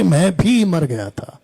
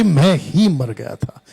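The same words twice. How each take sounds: First: भी slowed and leaned on; stress on भी. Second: ही slowed and leaned on firmly; stress on ही. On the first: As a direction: hit the word भी. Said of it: "यहाँ नहीं लिखा कि". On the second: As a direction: punch the word ही. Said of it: "लिखा है कि". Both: Shown as a demonstration.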